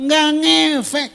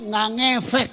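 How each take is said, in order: First: Nggak ngefek slow, higher and louder; emphatic verdict. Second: Said in the usual way. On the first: Shown as a demonstration. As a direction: hammer home that nggak ngefek is useless. Punchline repeated emphatically.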